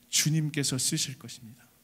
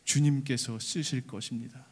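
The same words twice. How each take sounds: First: Said in the usual way. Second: Timid, trembling line. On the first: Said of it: "그렇게 얘기해라". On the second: Acted. The disciples, afraid, answer the owner with trembling. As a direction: say it with fear and trembling. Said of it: "두렵고 떨리는 마음으로 한마디를 댑니다".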